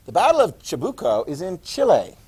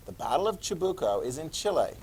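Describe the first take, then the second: First: Chabuco and Chile said firmly and a bit louder; emphatic statement. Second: Said in the usual way. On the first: Real, not acted. Teacher stresses the battle for the class, firm and clear. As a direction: state it clearly for note-takers.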